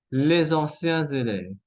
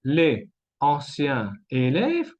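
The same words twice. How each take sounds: First: Les anciens élèves joined with z sounds; fluid liaisons. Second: Les anciens élèves word by word; three separate words, les anciens élèves, silent s; no liaisons. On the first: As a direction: link "les anciens élèves" as lé-zanciens-zélèves. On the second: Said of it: "¿Qué es más agradable". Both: Shown as a demonstration.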